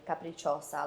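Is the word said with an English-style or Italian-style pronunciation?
Italian-style. It is said with an Italian-style pronunciation. The speaker calls it right. "Like I could actually pronounce them"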